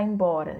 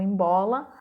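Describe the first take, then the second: First: The middle consonant is an R sound. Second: The middle consonant is an L sound. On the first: The speaker calls it right. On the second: The speaker calls it wrong.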